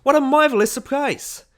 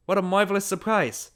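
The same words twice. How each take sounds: First: Very high, loud shriek of welcome; screaming greeting. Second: Higher-pitched hostess voice; delighted hostess. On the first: Party hostess greets Ned across the crowd, screaming. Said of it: "she began to scream". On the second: Mrs. Graham welcomes an unexpected guest, delighted. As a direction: greet a guest with delighted surprise. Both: A narrator's reading.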